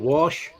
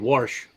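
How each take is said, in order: First: It is said without an R sound. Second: It is said with an added R, Southern style.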